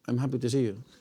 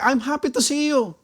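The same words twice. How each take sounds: First: It sounds flat and unenthusiastic. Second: It sounds warm and sincerely excited.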